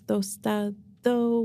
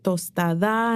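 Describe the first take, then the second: First: The name ends with an 'oh' sound. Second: The name ends with an 'ah' sound. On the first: The speaker calls it right. "no, it's tostado with an O" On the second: The speaker calls it wrong. "is it tostada?"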